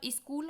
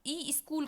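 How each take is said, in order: First: Said in the usual way. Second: ई स्कूल with "ee" before the s; added vowel. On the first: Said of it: "ई स्कूल कहेगा". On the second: Shown as a demonstration. Teacher showing a child's error, ई स्कूल with added vowel. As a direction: put an extra vowel ahead: ई स्कूल. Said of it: "ई जोड़ दिया यहाँ".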